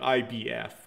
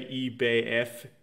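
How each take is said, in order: First: The acronym is said in an English style. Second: The acronym is said in a German style. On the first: The speaker has lived in the United States. "she would pronounce it like I B F just because she's got used to that" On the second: A German speaker would say it this way. "Maybe the Germans would say E B F"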